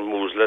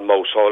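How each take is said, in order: First: It is said in the local form, like 'moozle'. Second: It is said as spelled, like 'mouse hole'.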